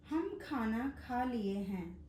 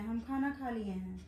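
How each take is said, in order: First: Slow dictation. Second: Casual everyday quote. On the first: Shown as a demonstration. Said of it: "पहला वाक्य है". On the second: Retold or imitated. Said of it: "अक्सर लोग कहते हैं".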